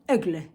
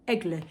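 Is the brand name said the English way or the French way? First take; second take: French; French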